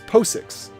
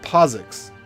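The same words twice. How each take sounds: First: The middle consonant is a hissing s sound. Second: The middle consonant is a buzzing z sound. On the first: The speaker calls it right. "it's actually it's an S, not a Z" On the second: The speaker calls it wrong.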